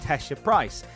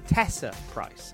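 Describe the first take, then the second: First: The first name has an sh sound in the middle. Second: The first name has an s sound in the middle. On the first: The speaker calls it right. "her name should be pronounced, as I just pronounced it" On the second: The speaker calls it wrong. "as opposed to"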